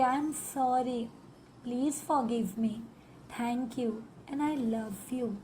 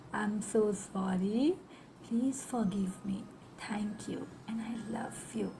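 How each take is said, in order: First: Very slow, gentle heartfelt mantra; from the heart. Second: Slow, hushed whisper of the mantra; fading to a whisper. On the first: Hand on the pain, asking the body for forgiveness, slow and tender. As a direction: linger softly on every word. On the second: Closing the forgiveness mantra, whispered and fading. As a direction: let the words fade into breath. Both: Shown as a demonstration. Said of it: "दिल से कहेंगे".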